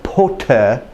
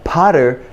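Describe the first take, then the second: First: The middle t is a crisp stop. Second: The middle t is a soft flap. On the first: "is Potter to some people in England" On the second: "Potter to the American"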